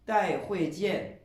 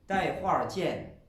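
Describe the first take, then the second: First: It is said without the r-coloured syllable ending. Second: It is said with an r-coloured syllable ending.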